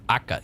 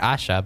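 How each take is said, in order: First: The middle consonant is a k sound. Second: The middle consonant is an sh sound. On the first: "or Aka even" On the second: "I'm pronouncing it Asha"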